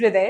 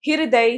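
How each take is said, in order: First: हृदय as 'hriday', hr joined; correct pronunciation. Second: हृदय drawn out as 'hi-ra-day'; mispronounced word. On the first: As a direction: start हृदय on a tight hr. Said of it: "होता है". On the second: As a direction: slowly split the hr of हृदय. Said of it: "नहीं". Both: Shown as a demonstration.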